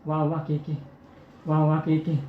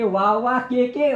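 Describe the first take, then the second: First: Put-on a weak old woman straining to get the words out; feeble old granny. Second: Put-on slow, a bit higher and louder old granny; the revived granny spells it out slowly and firmly; granny, now stronger. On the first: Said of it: "आजी हळूच कसं म्हणते". (मरणासन्न आजीचा हळू, क्षीण आवाज) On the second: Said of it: "केव्हा तर सांगते". (शक्ती आलेली आजी, हळू पण जोरात सांगते)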